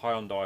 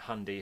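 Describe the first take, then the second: First: It is said the British English way. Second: It is said the American English way.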